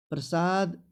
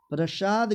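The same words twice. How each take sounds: First: प्रसाद said as "prasaad"; slow प्रसाद with a dental s; correct pronunciation. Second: प्रसाद said as "prashad"; sh in the middle of प्रसाद; higher प्रसाद with palatal sh; wrong pronunciation. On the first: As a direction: clean s in the middle of प्रसाद. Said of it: "प्रसाद सही है". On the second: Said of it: "तालव्य स नहीं". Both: Shown as a demonstration.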